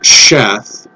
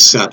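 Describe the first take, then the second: First: The name begins with an 'sh' sound. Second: The name begins with an 's' sound. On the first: The speaker calls it wrong. "I don't know why they're pronouncing it Sheth" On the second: The speaker calls it right. "What they mean is Seth"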